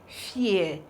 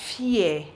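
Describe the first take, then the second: No difference in how they are said.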